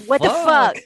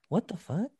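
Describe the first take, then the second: First: It is said as a loud exclamation. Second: It is said as a puzzled question.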